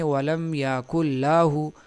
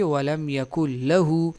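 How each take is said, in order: First: The vowel after the l is long. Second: The vowel after the l is short. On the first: The speaker calls it wrong. "इस लाम के साथ अलिफ बढ़ा देते हैं" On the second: The speaker calls it right. "लाहू नहीं बल्कि वलम यकुल लहू"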